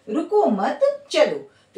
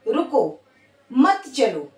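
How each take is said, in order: First: It is said straight through without a pause. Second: There is a pause after the first word. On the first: Do not stop, keep going. "रुकना नहीं है, चलते रहना है" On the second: Stop here, do not go. "अब मैं यहां pause हो गई"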